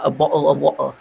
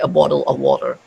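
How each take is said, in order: First: It is said in a Cockney accent. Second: It is said in a standard British accent. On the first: "Though that is a Cockney accent" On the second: "most British they would say a bottle of water"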